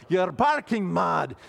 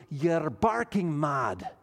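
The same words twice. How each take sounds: First: Louder, slow hammed-up Scottish accent; mock Scottish accent, punched out loud. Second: Put-on a weak, slow stab at a Scottish accent; lightly done Scottish accent, slowed down; terrible Scottish accent. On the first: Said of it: "Let me try it". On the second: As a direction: drawl it out in a half-hearted Scottish accent. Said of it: "That was a terrible Scottish accent".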